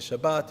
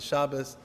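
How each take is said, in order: First: It is said in a non-Ashkenazi pronunciation. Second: It is said in the Ashkenazi pronunciation. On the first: "You could say Shabbat" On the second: "I like to use the Ashkenazi trans, uh, pronunciation"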